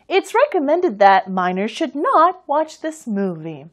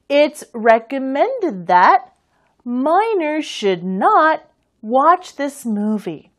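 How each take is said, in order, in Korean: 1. 이 문장은 빠르게 말했어요. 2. 이 문장은 느리게 말했어요.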